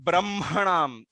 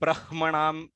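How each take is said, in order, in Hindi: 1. m ध्वनि पहले आती है, फिर h। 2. h ध्वनि पहले आती है, फिर m। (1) "इस तरीके से इसका उच्चार है" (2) "नॉट"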